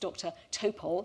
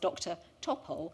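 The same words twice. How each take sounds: First: The name is said the owner's own way. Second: The name is said the commonly assumed way. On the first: The speaker calls it right. "actually he's" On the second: The speaker calls it wrong. "being introduced to people as"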